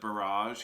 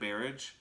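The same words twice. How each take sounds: First: The word is said the usual way. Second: The word is said in an odd way. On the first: "instead of barrage" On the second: "pronounces one word really weird"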